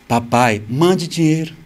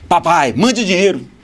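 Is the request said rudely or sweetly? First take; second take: sweetly; rudely. First: It is said in a sweet, gentle tone. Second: It is said in a rude, demanding tone.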